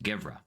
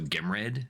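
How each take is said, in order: First: The name is said with a v sound. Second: The name is said with an m sound. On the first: The speaker calls it right. "apparently it's pronounced Gevra" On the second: The speaker calls it wrong. "my natural inclination to pronounce it"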